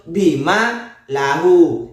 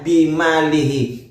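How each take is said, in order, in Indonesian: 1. Frasa itu berakhir dengan bunyi 'la-hu'. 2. Frasa itu berakhir dengan bunyi 'li-hi'. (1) "yang betul bima lahu" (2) "kalau Anda membaca bimalihi"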